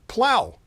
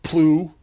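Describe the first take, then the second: First: The word ends with an 'ow' sound. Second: The word ends with an 'ew' sound. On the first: The speaker calls it right. "but plow" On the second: The speaker calls it wrong. "not plew"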